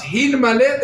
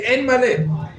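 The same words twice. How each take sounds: First: "Hin Maleh" with a clear H at the start, pitched up; the proper Hebrew "Hin Maleh", H sounded; H pronounced. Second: "En Maleh" with the opening H missing, pitched up; imitating the converts' H-less "En Maleh"; dropped H. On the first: Shown as a demonstration. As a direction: breathe the H into "Hin" before the vowel. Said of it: "That's how they would pronounce". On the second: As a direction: start "En" on a bare vowel, higher. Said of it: "they would say".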